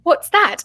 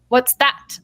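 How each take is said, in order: First: It is said in a put-on British accent. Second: It is said in the speaker's plain accent.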